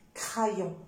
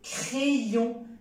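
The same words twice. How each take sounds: First: The first vowel is an open A sound. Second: The first vowel is an E sound. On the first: The speaker calls it wrong. "C'est faux. ... évitez de prononcer A" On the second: The speaker calls it right. "c'est E"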